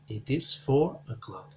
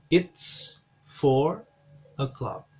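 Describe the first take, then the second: First: It is said as two full words. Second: It is shortened to one syllable.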